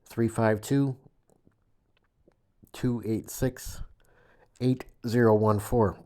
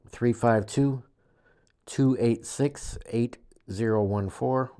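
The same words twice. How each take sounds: First: The number is read more slowly. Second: The number is read at normal, faster speed.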